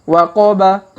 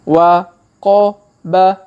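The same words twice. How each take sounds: First: The syllables are read quickly. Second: The syllables are read slowly. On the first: "Kalau dipercepat" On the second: "Kita baca pelan-pelan"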